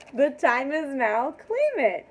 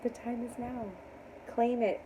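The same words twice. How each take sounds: First: Loud, high, punched-out call; rousing proclamation. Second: Soft echo of a rallying call; hushed affirmation. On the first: Reader urging viewers to claim blessings, rousing. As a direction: proclaim it loud, leaping up on the last words. Rallying viewers, emphatic take. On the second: Reader repeating her call to viewers, hushed. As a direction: say it quietly, letting it settle. Repeats it softly after pause. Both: Real, not acted.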